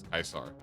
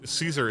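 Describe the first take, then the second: First: The name begins with a hard K sound. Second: The name begins with a soft S sound. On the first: The speaker calls it right. "that's actually how you're supposed to pronounce the name" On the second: The speaker calls it wrong. "Caesar is incorrect"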